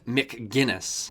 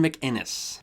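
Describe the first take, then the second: First: The name is said with a hard g sound. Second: The name is said without a hard g sound. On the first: The speaker calls it wrong. "not McGinnis" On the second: The speaker calls it right. "Gavin McInnes"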